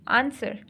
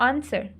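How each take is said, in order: No difference in how they are said.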